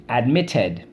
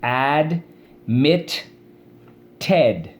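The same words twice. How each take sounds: First: Said in the usual way. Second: "Admit Ted" broken into AD, MIT, TED with pauses; syllable by syllable. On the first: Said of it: "Let's go". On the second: Shown as a demonstration. Teacher showing class how to break up admitted, syllable by syllable. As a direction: chant "Admit Ted" as three separate stretched syllables. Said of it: "Let's go. Watch".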